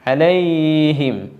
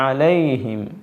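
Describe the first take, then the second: First: The 'ay' sound is stretched out long. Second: The 'ay' sound is kept short. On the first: The speaker calls it wrong. "ഒരൽപ്പം നീട്ടൽ" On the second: The speaker calls it right. "ഇങ്ങനെ കേൾക്കാവൂ"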